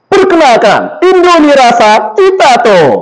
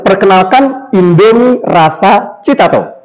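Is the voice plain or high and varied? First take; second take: high, varied; plain. First: It is said high with a varied pitch. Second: It is said in a plain voice.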